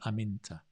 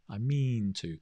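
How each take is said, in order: First: The m runs into a short, weak vowel. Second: The m is followed by a long 'ee' vowel. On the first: The speaker calls it right. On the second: The speaker calls it wrong.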